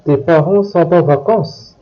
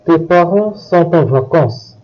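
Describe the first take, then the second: First: "Tes parents sont en vacances" as a question, rising on VACANCES; "Tes parents sont en vacances?" with rising tune; question intonation. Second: Said in the usual way. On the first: Shown as a demonstration. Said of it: "making your voice go up". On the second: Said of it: "turn it into a question".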